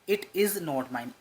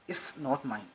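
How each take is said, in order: First: It is said as separate full words. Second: It is said with 'it is' contracted.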